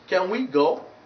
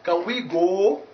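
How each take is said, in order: First: The vowel in go glides toward u. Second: The vowel in go stays a pure vowel. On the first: The speaker calls it right. "No, it's can we go?" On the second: The speaker calls it wrong. "Not can we go?"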